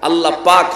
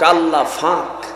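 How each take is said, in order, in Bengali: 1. দ্বিতীয় শব্দটি p ধ্বনি দিয়ে শুরু হয়। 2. দ্বিতীয় শব্দটি f ধ্বনি দিয়ে শুরু হয়।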